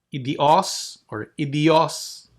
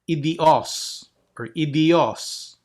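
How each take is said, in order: The two takes are said the same way.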